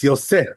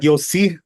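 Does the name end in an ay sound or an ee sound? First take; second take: ay sound; ee sound. First: The name ends in an ay sound. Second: The name ends in an ee sound. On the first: The speaker calls it right. "it's Yosef" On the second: The speaker calls it wrong. "it's not Yossi"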